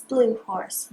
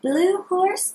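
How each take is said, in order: First: Dropped, settling repeat. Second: Higher, bright calling tone; sing-song call. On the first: Repeat lower. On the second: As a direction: call out the name. Repeat call. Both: Shown as a demonstration.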